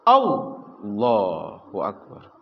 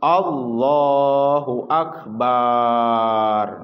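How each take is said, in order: First: It is jerked out abruptly and forcefully. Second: The ba of akbar is stretched out long. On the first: "Ada juga yang di yang dihentakkan" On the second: "tidak boleh panjang ba lafad akbaru"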